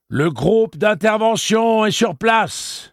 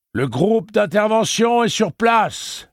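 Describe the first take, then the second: First: Loud, slow megaphone repeat; police megaphone in the street; amplified repeat. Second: Loud, slow megaphone announcement; police megaphone in the street; amplified voice. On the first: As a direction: repeat it through the bullhorn. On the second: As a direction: boom it through a bullhorn. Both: A narrator's reading. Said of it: "fit une voix amplifiée".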